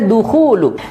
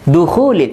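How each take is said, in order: First: The word ends with a 'u' sound. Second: The word ends with an 'il' sound. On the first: The speaker calls it right. "harusnya dukhulu" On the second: The speaker calls it wrong. "harusnya dukhulu"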